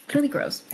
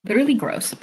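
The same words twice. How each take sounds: First: Squeaky higher disgust; higher playful gross; higher repeat. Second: Said in the usual way. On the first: Real, not acted. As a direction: pitch it up in mock disgust. Repeated reaction, second higher.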